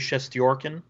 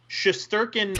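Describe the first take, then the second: First: The name is said with a Russian pronunciation. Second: The name is said with an English pronunciation. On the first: "if you were in his homeland, you would say" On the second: "the Anglo pronunciation"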